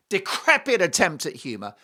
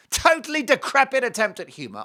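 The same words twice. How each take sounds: First: Said in the usual way. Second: "Totally decrepit" hit high and loud; emphatic repeat. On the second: Real, not acted. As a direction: punch "Totally decrepit" with raised pitch and force.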